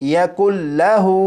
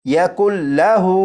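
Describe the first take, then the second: No difference in how they are said.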